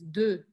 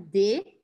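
First: The vowel is a short, neutral French schwa. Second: The vowel sounds like Portuguese, not a schwa. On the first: The speaker calls it right. "esse de é o E francês" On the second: The speaker calls it wrong. "Não é de"

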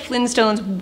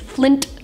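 First: The T sound in the word is dropped. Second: The T sound in the word is pronounced. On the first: The speaker calls it wrong. "I've said them on this channel before, and everyone made fun of me" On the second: The speaker calls it right. "I know there's a T in there"

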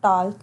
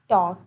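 First: The L is sounded before the K. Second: The L is silent before the K. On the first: The speaker calls it wrong. "not talk" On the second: The speaker calls it right. "it's talk"

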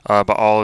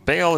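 First: The name is said with a Hebrew pronunciation. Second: The name is said with an English pronunciation. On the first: "Baal is more the Hebrew" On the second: "Baal is more the English version of it"

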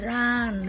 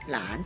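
First: The word is said on a falling tone. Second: The word is said on a rising tone.

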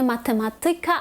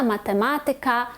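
First: The stress is on the fourth syllable. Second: The stress is on the third syllable. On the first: The speaker calls it wrong. "ми кажемо не математика" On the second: The speaker calls it right. "а правильно буде ... математика"

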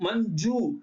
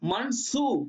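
First: The middle consonant sounds like a soft 'j'. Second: The middle consonant sounds like 'n' then 's'. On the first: The speaker calls it right. "சா ஜான் ஒலிக்குதுங்க" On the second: The speaker calls it wrong. "எஸ்யூ போட்டீங்கன்னா என்ன ஆயிடுங்க? மண் சூ ஆயிடும்"

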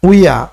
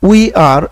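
First: The two words are blended into one syllable. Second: The two words are said separately. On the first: "contracted হয়ে যাবে উইয়া" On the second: "এখন উই আর এটা contracted হয়ে যাবে"

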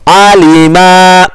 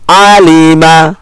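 First: A vowel is stretched out long. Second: The vowels are all kept short. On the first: The speaker calls it wrong. "kadang-kadang kita membaca panjang secara tidak sadar, contohnya seperti ini" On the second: The speaker calls it right. "padahal yang betul itu adalah alima"

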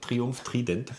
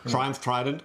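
First: Trident is pronounced the German way. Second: Trident is pronounced the English way.

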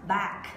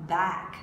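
No difference in how they are said.

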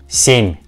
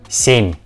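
The two takes are said the same way.

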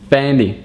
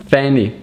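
Both takes have the same delivery.

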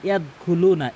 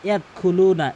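Both takes have the same delivery.

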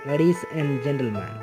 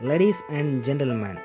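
Both takes have the same delivery.

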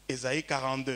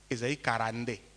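First: It is said in a standard French accent. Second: It is said in a Congolese regional accent.

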